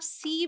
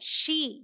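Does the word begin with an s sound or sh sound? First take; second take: s; sh. First: The word begins with a plain s sound. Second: The word begins with an sh sound. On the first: The speaker calls it wrong. "अगर इसे आप सी बोलते हो तो गलत" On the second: The speaker calls it right. "सही क्या है, शी"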